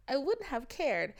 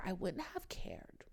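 First: Said in the usual way. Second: Whispered, slower and softer. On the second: Retold or imitated. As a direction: drop to a secretive whisper. Hushed aside in retold talk.

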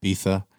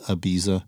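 First: Castilian "Ibiza" with a th for the z; Spanish accent with lisp. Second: Said in the usual way. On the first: Acted. Host echoing a co-host's Ibiza, lisped Spanish accent. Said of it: "the lisp going with the, uh, the Spanish accent". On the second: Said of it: "as the rest of the world calls it".

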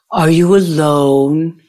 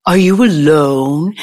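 First: Put-on slow, drawn-out German accent; German-accented whisperer. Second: Put-on lingering German-accented question. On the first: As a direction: imitate a German man's slow come-on. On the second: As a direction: imitate him with a German accent. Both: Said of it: "I heard the German accent".

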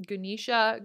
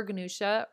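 First: "Ganesha" said guh-NEE-shuh; long ee in "Ganesha", ending in shuh; long-e pronunciation. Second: "Ganesha" said guh-NOO-shuh; oo-vowel variant. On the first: Host showing listeners a name variant, "Ganesha" as guh-NEE-shuh. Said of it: "Some people pronounce his name differently". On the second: Host listing variants for listeners, "Ganesha" as guh-NOO-shuh. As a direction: put an oo in the middle of "Ganesha". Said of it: "I've heard it pronounced so many different ways". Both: Shown as a demonstration.

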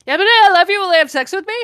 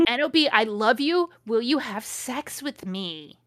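First: High, loud blurted confession; frantic love outburst. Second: Hammed-up proposal, slowing at the end; measured dramatic reading. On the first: Acted. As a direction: blurt it out in a hammed-up frenzy. Blurted love declaration in story. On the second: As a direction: read it out deliberately, drawing out the question. Rereads the declaration more measuredly.

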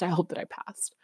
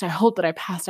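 First: Hushed whispered repeat. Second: Said in the usual way. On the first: Retold or imitated. Nervous student after the test, whispering to herself. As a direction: breathe it out as a nervous prayer.

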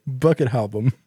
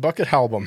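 First: Repeating it as a burped phrase; burping the words. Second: Burped out through a belch; burping the words. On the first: Retold or imitated. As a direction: mimic the belched phrase. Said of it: "Instead of saying [name] album". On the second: Real, not acted. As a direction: say it on a burp. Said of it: "I had to burp".

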